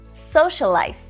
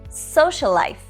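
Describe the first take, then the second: No difference in how they are said.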